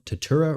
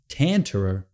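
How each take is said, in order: First: No N sound follows the first vowel. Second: An N sound follows the first vowel. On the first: The speaker calls it right. "like we're supposed to" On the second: The speaker calls it wrong. "I keep wanting to add an N right after that A"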